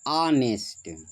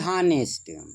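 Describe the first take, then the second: First: The word begins with a vowel, no h. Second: The word begins with an audible h sound. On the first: The speaker calls it right. "वो होता है बेटा ऑनेस्ट" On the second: The speaker calls it wrong. "न कि हानेस्ट"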